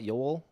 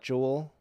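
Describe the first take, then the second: First: The name begins with a Y sound. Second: The name begins with a J sound. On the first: "I've heard people say" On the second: "I always say"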